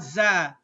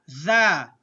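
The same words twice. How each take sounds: First: "za" with a buzzing z sound; wrong za sound. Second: "Za" with the tongue between the teeth, a voiced th; correct tha sound. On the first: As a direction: say "za" with a plain z, the sound to avoid. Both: Shown as a demonstration. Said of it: "Not za".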